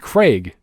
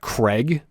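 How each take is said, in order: First: The vowel does not sound like Greg's. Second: The vowel sounds like the one in Greg. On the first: It matches how the name is spelled. The speaker calls it right. "It's C R A I G" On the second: It does not match the spelling. The speaker calls it wrong. "Not Craig"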